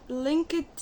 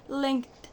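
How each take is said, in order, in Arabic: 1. يُنطق المقطع الأخير كـ'ed' منفصلة. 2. يُنطق المقطع الأخير كصوت 't' بسيط. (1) "ده مش صح بقى" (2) "هننطقها ت مش اي دي"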